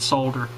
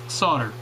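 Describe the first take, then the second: First: The word is pronounced the British way. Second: The word is pronounced the American way. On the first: "I know you guys pronounce it solder" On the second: "our dictionary says solder"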